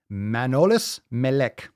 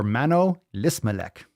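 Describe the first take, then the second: First: "Manolis Melek" split after Manolis; slow "Manolis Melek", break before Melek; name read as Manolis Melek. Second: "Mano Lismelek" with Lis joined to Melek; slow "Mano Lismelek", break before Lismelek; name read as Mano Lismelek. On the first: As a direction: say "Manolis Melek" slowly as two names. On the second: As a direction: say "Mano Lismelek" slowly, splitting after Mano. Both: Shown as a demonstration. Tries two readings of a name.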